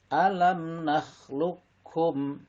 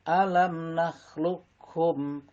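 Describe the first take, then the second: No difference in how they are said.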